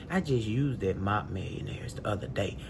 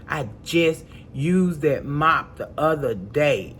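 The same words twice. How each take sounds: First: Low, soft, tossed-off remark; low aside. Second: Slow, word-by-word stress on "just used that mop the other day"; emphatic repetition. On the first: Woman recalling her recent use of the mop, low aside. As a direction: drop it low and quiet, in passing. First take, said in passing. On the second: Woman stressing she just used that mop, slow and emphatic. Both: Real, not acted.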